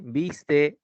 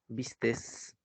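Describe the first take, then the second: First: The word ends without an added s sound. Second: The word ends with an added s sound. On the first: The speaker calls it right. "no se emplea la terminación ese" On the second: The speaker calls it wrong. "uno de los grandes errores que a veces se comete es hacer esa expresión"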